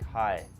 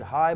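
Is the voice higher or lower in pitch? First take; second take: lower; higher. First: It is said in a lower voice. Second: It is said in a higher voice. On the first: The speaker calls it right. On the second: The speaker calls it wrong.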